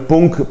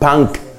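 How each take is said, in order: First: It is pronounced as read with Spanish sounds. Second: It is pronounced with English sounds. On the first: "Uno lo leería en español punk" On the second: "en inglés lo dicen punk"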